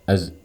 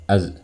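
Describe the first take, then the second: Both takes have the same delivery.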